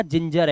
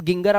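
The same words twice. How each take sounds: First: Teacher models जिंजर with 'j', not hard 'g'; correct pronunciation demo. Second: गिंगर with hard 'g' sounds; teacher's wrong example गिंगर, 'g' as in gas; deliberate misreading. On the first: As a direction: say जिंजर as English "ginger". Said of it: "आपने कहा". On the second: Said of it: "नहीं पढ़ोगे". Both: Shown as a demonstration.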